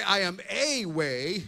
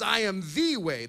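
First: "a" said lightly in "I am a way"; wrong article. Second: "the" in "I am the way" pressed with weight; stress on THE. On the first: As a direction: read "I am a way" slowly, with a plain "a". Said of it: "he didn't say". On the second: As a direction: lean on "the" to make it exclusive. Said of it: "That's exclusive article". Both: Shown as a demonstration.

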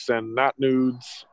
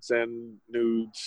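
First: "not" slowed and stressed. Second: Said in the usual way. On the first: Shown as a demonstration. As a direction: lean hard on "not", drawn out.

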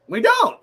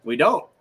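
First: "don't" jumps much higher and louder; emphatic repeat. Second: Said in the usual way. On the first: Real, not acted. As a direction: hammer "don't" up high, loud and insistent.

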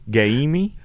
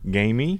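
First: "Gamey?" stretched to GUY-mee, higher, rising; exaggerated misreading. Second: "Gamey?" with a long "ay", as a question; misreading of a name. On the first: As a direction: sound out "Gamey" wrongly with an "eye" vowel. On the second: Acted. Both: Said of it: "some people might be like".

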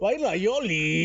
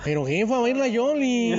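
First: Slow northern Mexican drawl; northern Mexican accent. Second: Put-on slow, singsong northern Mexican accent. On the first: Retold or imitated. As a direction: draw out the words, northern Mexican style. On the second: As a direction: stretch baila Yoli like a northern Mexican. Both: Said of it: "Tienes que hablar como norteño".

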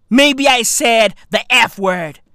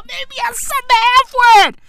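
First: Said in the usual way. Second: High, rushed squeal through laughter; giddy, much higher and faster; laughing. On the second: Real, not acted. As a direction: squeal it out while cracking up. Same line again, cracking up.

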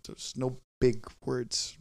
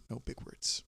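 First: Said in the usual way. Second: Whispered "no big words" to himself. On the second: Retold or imitated. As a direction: breathe the words with no voice. Telling himself in his head.

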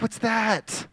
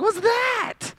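First: Soft, slightly higher mock puzzlement; mild puzzlement. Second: Very high-pitched squeal of disbelief; hammed-up panic at a new ache; mock alarm. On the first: Preacher voicing someone turning thirty, mildly puzzled. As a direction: lightly question a small new ache. Imitates reaction to aches at thirty. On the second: Preacher voicing someone turning thirty-five, mock-alarmed squeal.

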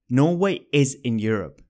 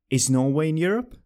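First: Norway is in Europe said as a statement, falling at the end; falling statement tune. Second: Europe rising clearly as a question, a bit quicker; rising question tune. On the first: Teacher showing a statement, with a falling end. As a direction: let Europe drop like a plain statement. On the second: Teacher showing a question, with a rising end. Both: Shown as a demonstration. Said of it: "You get a rising intonation in questions".

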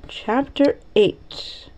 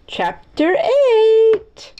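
First: Said in the usual way. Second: Drawn-out, high, rising heading; grand announcement. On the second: Pretend. Reader announces the next chapter, high drawn-out fanfare. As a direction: herald it playfully, stretching the last word.

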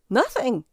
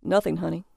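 First: High, startled squeak; husband caught at the computer squeaks a denial. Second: Regaining composure, voice back down; husband recovering his grown-up tone; man's voice. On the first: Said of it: "he squeaked". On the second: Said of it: "He retrieved his man's voice". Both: Acted.

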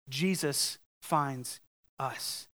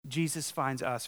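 First: Slow, low, weighty statement; emphatic repeat. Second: Said in the usual way. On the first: Shown as a demonstration. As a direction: let each word land slowly.

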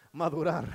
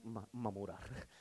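First: Madurar said right through a laugh; real laughing correction. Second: Mamurar stumbled out slow and soft before the fix; real slip of the tongue. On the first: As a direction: fix the word madurar, laughing at yourself. (corregir madurar riéndose de su propio error) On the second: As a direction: mangle madurar into mamurar, slowly and quietly. (trabarse y decir mamurar en vez de madurar, lento y bajito) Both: Real, not acted.

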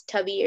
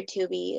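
First: "Tubby" with a short u, rhyming with hubby; Tubby pronunciation. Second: "Tubi" with a long oo, like TOO-bee; Tubi pronunciation. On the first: Unsure which name is right, "Tubby" with short u. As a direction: say "Tubby" with the vowel of cup. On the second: Offering the other option, "Tubi" with long oo. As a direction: say "Tubi" starting like the word two. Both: Shown as a demonstration. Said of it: "I don't know if it's Tubby or Tubi".

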